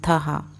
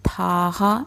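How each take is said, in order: First: The first vowel is short. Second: The first vowel is long. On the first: The speaker calls it right. "इसलिए थहा बोलेंगे" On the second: The speaker calls it wrong. "थाहा नहीं"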